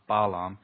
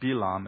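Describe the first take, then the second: First: The first vowel is an a sound. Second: The first vowel is an ee sound. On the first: The speaker calls it wrong. "it's not Balaam" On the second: The speaker calls it right. "it's the E pronunciation is Bilam"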